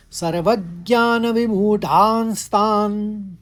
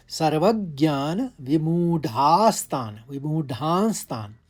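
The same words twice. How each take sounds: First: Chanted, "सर्वज्ञान विमूढ़ांस्तान" intoned high, loud and slow; chanted verse line. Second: Said in the usual way. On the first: Shown as a demonstration. Teacher recites the third line for students, "सर्वज्ञान विमूढ़ांस्तान" in slow loud chant. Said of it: "ऊपर बिंदा भी है". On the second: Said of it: "ग का आघात लेते हुए".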